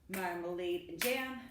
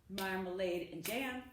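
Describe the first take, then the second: Both takes have the same delivery.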